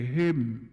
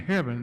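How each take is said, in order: First: The word is reduced to 'heb'm'. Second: The word has its standard pronunciation. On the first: "they would say him, H E B apostrophe M" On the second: "rather than saying heaven"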